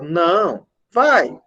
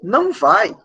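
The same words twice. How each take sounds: First: There is a pause after the first word. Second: The two words run on without a pause. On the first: No, do go. "na oralidade a gente vai ter uma pausa" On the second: Do not go. "A gente tem uma sequência"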